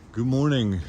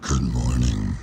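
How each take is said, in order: First: It is said in the speaker's normal voice. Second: It is said in a put-on demon voice.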